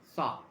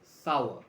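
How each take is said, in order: First: The word sounds like 'sar', not 'sow-er'. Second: The word sounds like 'sow-er', not 'sar'. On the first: The speaker calls it right. "You pronounce it as if it is spelled with S A R" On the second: The speaker calls it wrong. "please don't pronounce it as sour. A lot of people say sour"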